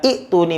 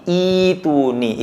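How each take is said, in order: First: "ituni" with a short first i cut by a glottal catch; clipped first syllable in "ituni"; wrong short reading. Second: "ituni" with a long first i, iii-tuni; smooth, lengthened first vowel in "ituni", no catch; long-vowel reading. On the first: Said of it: "Maka bukan ituni bacanya". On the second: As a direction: stretch the opening i of "ituni". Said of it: "Itu ketika diwakafkan". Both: Shown as a demonstration.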